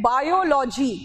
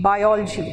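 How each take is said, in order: First: बायोलॉजी with every syllable full, "baa-yo-lo-jee"; Hindi-style pronunciation. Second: बायोलॉजी squeezed to "bai-ol-jee", lower; English pronunciation. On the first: Teacher quotes students saying बायोलॉजी as "baa-yo-lo-jee". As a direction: say बायोलॉजी with a clear "yo-lo". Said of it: "आप लोग कहते हैं". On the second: Teacher shows English biology, बायोलॉजी run together as "bai-ol-jee". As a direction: say बायोलॉजी low, with no full "lo". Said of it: "English में पता pronunciation क्या है?". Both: Shown as a demonstration.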